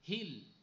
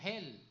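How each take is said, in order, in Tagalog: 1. Sarado ang patinig, tulad sa 'bit'. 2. Bukas ang patinig, tulad sa 'bed'. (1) "sasabihin naman ng sa sa south, hill. Oy, mali" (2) "o sabihin ng north, o sabihin mo hell"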